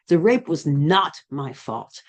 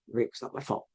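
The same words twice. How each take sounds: First: It is said forcefully, with strong energy. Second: It is said plainly, with little energy. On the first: The speaker owns the truth of it. "I started putting more emphasis and energy" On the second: The speaker does not yet believe it. "it started out with"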